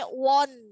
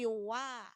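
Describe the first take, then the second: First: The vowel is rounded, like 'o'. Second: The vowel is open, like 'a'. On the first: The speaker calls it wrong. "Jangan sampai won" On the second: The speaker calls it right. "tapi wa"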